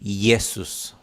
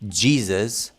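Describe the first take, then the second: First: It begins with a Y sound. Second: It begins with a J sound. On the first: "in German you read Jesus" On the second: "in the words like Jesus"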